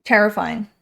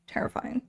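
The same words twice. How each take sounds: First: Said in the usual way. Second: Hushed whisper. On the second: Acted. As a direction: breathe the word out voicelessly. Repeated in whisper.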